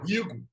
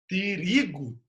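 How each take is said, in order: First: The word starts with a plain r sound. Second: The word starts with both t and r. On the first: The speaker calls it wrong. "eu não falo rigo" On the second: The speaker calls it right. "Eu falo trigo"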